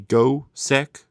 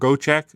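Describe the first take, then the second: First: The last syllable sounds like 'sek'. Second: The last syllable sounds like 'check'. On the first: The speaker calls it wrong. "Not Sek" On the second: The speaker calls it right. "it's Go Check, isn't it?"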